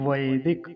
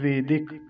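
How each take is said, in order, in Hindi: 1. पहला स्वर संयुक्त स्वर 'ai' है। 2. पहला स्वर सादा 'e' है। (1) "वेदिक नहीं कहना है, वैदिक" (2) "कुछ लोग इसका उच्चारण गलत करते हैं"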